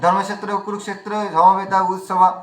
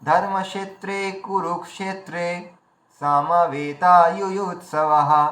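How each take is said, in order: First: The words run together without breaks. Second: Each word is set apart by small breaks. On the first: The word boundaries cannot be heard. The speaker calls it wrong. "এতে কি হলো বোঝা গেল না" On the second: Each word can be clearly heard as separate. The speaker calls it right. "পরিষ্কার শ্রোতা বুঝতে পারলেন যে এখানে এইগুলো শব্দ আলাদা আলাদা"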